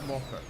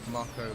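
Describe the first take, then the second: First: The first syllable sounds like "mo". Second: The first syllable sounds like "may". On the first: "In Japanese, it'd be Moko" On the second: "put one or two if it's May or Ma"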